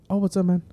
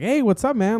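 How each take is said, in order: First: It is said in a flat, dull way. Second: It is said in a lively, excited way.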